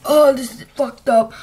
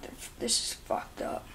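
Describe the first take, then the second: First: Louder real groaning complaint; loud pained outburst. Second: Stammering voiceless whisper; barely-there strained whisper; choked whisper. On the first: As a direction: blurt it out in distress. Still choking on cinnamon. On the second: After taking the cinnamon. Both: Real, not acted.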